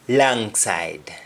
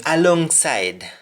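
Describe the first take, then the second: First: "langside" without the opening A, vowel as in "lang"; Patois "langside", first syllable clipped away; Jamaican pronunciation. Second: Said in the usual way. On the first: Shown as a demonstration. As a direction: say "langside" with an open A for the O. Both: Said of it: "Alongside would be langside".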